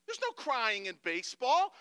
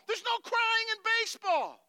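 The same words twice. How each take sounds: First: Loud, higher scolding as the coach loses it; Tom Hanks. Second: Full-out, very high exasperated yell; Tom Hanks. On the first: Coach reams out a player, building outburst. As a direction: bellow it, not yet at full pitch. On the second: Coach reams out crying player, screaming outrage. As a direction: scream it as a coach who has lost it. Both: Acted. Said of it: "And he loses it. He's like".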